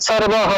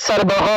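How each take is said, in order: No difference in how they are said.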